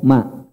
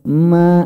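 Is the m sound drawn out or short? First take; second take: short; drawn out. First: The m sound is short and released directly. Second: The nasal m sound is drawn out long. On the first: The speaker calls it right. "Cukup ma" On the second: The speaker calls it wrong. "mimnya jangan diseret, jangan ma, enggak"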